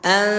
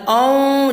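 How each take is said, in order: First: The vowel is open and thin, like 'a'. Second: The vowel is rounded and heavy, like 'o'. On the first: The speaker calls it right. "tapi a. ... a-nya tipis" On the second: The speaker calls it wrong. "jangan om"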